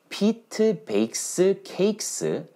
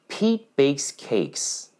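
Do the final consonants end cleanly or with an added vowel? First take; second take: added vowel; clean ending. First: A vowel is added after each word-final consonant. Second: Word-final consonants end cleanly with no extra vowel. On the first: The speaker calls it wrong. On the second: The speaker calls it right.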